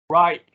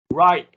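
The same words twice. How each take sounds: The two takes are said the same way.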